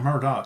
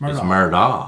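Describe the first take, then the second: First: The name ends with a k sound. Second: The name ends without a k sound. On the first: The speaker calls it wrong. "everybody keeps saying Murdoch" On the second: The speaker calls it right. "It's not Murdoch"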